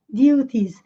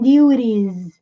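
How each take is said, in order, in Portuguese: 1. O t é um som de t claro. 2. O t é um flap rápido, parecido com um r. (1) "ele falaria o T com som de T mesmo" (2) "T com som de R"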